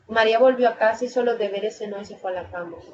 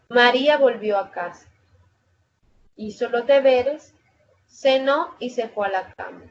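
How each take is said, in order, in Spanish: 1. Se dice rápido, sin ninguna pausa. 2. Hay pausas cortas que separan cada frase de la lista.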